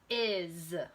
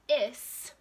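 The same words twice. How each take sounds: First: The word ends with a buzzing z sound. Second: The word ends with a hissing s sound. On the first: The speaker calls it right. "try the Z sound" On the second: The speaker calls it wrong. "with an S sound"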